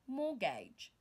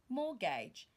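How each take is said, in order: The two takes are said the same way.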